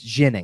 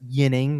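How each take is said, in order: First: The name begins with a soft zh sound. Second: The name begins with a y sound. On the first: This is how the player himself says it. The speaker calls it right. "like an Alexei Zhitnik kind of pronunciation ... but it is a soft sound" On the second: This is the standard Swedish reading of the name. The speaker calls it wrong. "it is not Yinning ... Yinning is more of what the Swedish pronunciation should be"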